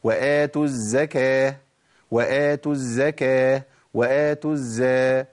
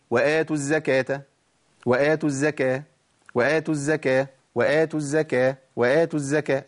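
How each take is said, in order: First: Slow وآتوا الزكاة with the z doubled and held; تشديد الزاي ببطء; correct doubled z. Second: الزكاة with a short, undoubled z; الزكاة بدون تشديد; wrong light z. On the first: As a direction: lean on the doubled zay in الزكاة. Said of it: "أمال الصح إيه يا شيخ". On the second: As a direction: rattle off the mistaken وآتوا الزكاة. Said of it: "ده خطأ، أنا بعمل أكرر خطأ". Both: Shown as a demonstration.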